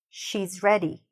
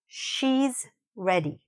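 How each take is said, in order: First: It is said at normal speed. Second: It is said slowly. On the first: "at a regular speed" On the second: "I'm saying it slowly at first"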